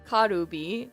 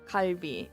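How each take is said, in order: First: An extra vowel sounds before the b. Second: No vowel sounds between l and b. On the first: The speaker calls it wrong. "in Japanese it's karubi" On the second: The speaker calls it right. "you have to say kalbi"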